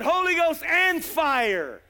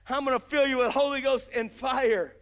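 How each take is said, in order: First: "Holy Ghost and fire" drawn out slowly, higher, falling on "fire"; slow proclamation. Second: Said in the usual way. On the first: Retold or imitated. Preacher quoting the promise to the crowd, "Holy Ghost and fire" slow. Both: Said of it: "He said".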